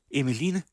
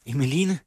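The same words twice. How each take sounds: First: High call of a name, a little less loud; calling again. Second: High call of a name. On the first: Mother calling for Emmeline a second time. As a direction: call once more into the house. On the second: Mother calling for Emmeline, high and raised. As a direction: call her daughter from the next room. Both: A narrator's reading. Mother calls for her daughter.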